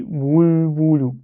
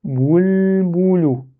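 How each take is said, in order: First: "boul boulou" with lips kept rounded through the l; lips left forward. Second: "Boul, boulou" higher, with a long l, lips back then out; correct lip change. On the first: Teacher showing the habitual error, "boul boulou" with lips never drawn back. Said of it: "c'est pas très très juste". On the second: Teacher modelling the right way, "Boul, boulou" with lips re-rounded after l. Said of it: "on les ressort après". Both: Shown as a demonstration.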